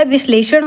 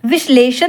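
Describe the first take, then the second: First: विश्लेषण ending in retroflex ण; correct विश्लेषण. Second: विश्लेषण ending in plain dental n; wrong विश्लेषण. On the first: Teacher gives the correct word, विश्लेषण with retroflex n. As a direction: curl the tongue to end विश्लेषण. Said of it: "होता है". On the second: Teacher shows the misspelling, विश्लेषण with plain n. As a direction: say विश्लेषण with a final न. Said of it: "नहीं होता". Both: Shown as a demonstration.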